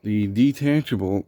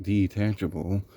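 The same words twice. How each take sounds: First: Said in the usual way. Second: Detachable said with a doubtful rising scare-quote tone; mock the word detachable with a skeptical rise; sarcastic air quotes. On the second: Shown as a demonstration. Reviewer scoffing at the so-called detachable cord, sarcastic. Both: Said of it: "quote unquote".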